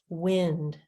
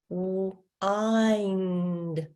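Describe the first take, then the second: First: The vowel is a short I sound. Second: The vowel is a long I sound. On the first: "instead of a short I sound" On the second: "if we had a long I sound"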